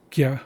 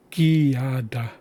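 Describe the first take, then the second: First: Gyada said fast in two syllables, gya-da; right two-syllable take. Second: Gyada drawn out slowly as gi-ya-da, three syllables; wrong three-syllable take. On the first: Teacher giving students the correct quick Gyada. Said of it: "It's two syllables". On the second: Teacher showing students the wrong slow gyada. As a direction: stretch gyada into gi-ya-da. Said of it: "That would be three syllables". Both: Shown as a demonstration.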